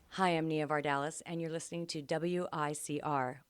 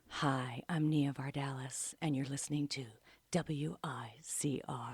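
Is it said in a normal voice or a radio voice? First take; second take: normal voice; radio voice. First: It is said in her normal speaking voice. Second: It is said in a put-on radio announcer voice.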